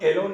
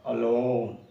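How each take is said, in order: First: The first vowel is a clear 'eh' sound. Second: The first vowel is a short 'uh' sound. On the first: The speaker calls it wrong. "इसको एलोन नहीं बोलेंगे, कुछ लोग उच्चारण में गलत करते हैं" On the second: The speaker calls it right. "ए का यहाँ पे उच्चारण अ होगा"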